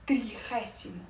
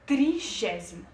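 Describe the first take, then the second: First: It is pronounced with Spanish sounds. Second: It is pronounced with Portuguese sounds. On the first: "em espanhol" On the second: "Em português"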